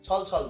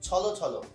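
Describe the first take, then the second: First: Each word ends on the consonant with no vowel. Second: Each word ends with an o vowel sound. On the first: The speaker calls it wrong. "ছল ছল না" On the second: The speaker calls it right. "অটা ওকার হয়ে যাচ্ছে"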